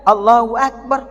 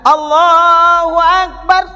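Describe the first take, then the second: First: The phrase is said short and quick. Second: The phrase is drawn out long.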